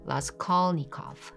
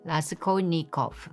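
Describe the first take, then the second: First: The name is said with English pronunciation. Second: The name is said with Korean pronunciation. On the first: "In English, it may be pronounced like" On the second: "In Korean, we say"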